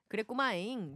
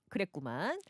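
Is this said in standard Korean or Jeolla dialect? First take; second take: Jeolla dialect; standard. First: It is said in a Jeolla dialect accent. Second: It is said in plain standard Korean.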